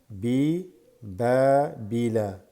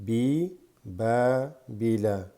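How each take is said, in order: No difference in how they are said.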